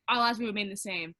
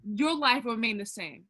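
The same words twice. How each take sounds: First: Said in the usual way. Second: "Your" stressed, pitch falling after it. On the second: Real, not acted. Correcting the man's post, pointed stress on "Your". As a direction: lean on "Your" to correct the quote.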